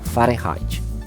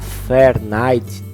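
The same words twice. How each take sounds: First: The name is pronounced the German way. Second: The name is pronounced the English way. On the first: "eu vou chamar a pronúncia em alemão" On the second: "algumas pessoas podem pronunciar Fahrenheit do inglês"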